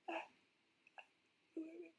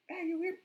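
First: It is said very quietly. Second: It is yelled loudly.

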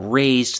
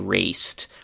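First: The ending is voiced, like z plus d. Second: The ending is voiceless, like s plus t. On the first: The speaker calls it right. "instead of saying, for example, raised" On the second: The speaker calls it wrong. "they say raced"

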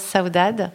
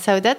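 First: The name is said with a Portuguese accent. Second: The name is said with a French accent. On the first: The speaker calls it right. "avec le petit accent portugais" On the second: The speaker calls it wrong.

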